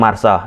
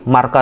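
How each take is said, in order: First: The middle consonant is an S sound. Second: The middle consonant is a K sound. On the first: "bukan Marsa" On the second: "Jadi aku combine, aku sebutkan aja lah"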